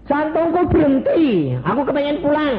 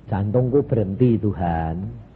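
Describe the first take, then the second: First: Begging plea. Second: Said in the usual way. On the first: Retold or imitated. Preacher begging Jesus to take him home, high pleading. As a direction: beg like a child to go home.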